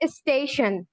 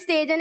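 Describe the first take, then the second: First: The ending is pronounced as 'shun'. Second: The ending is not pronounced as 'shun'. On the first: The speaker calls it right. "its sounds will be like shun" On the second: The speaker calls it wrong. "But it's not स्टेजन"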